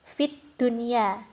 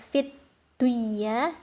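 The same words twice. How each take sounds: First: The n is pronounced clearly before the y. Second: The n merges into the y with nasalization. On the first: The speaker calls it right. "cara membacanya harus jelas" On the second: The speaker calls it wrong. "bukan fit dunya"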